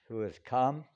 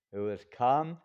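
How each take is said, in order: Both takes have the same delivery.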